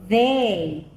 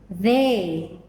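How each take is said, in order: No difference in how they are said.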